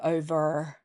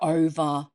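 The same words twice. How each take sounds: First: The final R sound is pronounced. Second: The final R sound is silent.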